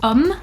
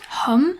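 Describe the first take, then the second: First: The initial h is silent. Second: The initial h is pronounced. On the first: The speaker calls it right. "The H sound doesn't exist in French" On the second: The speaker calls it wrong. "and not"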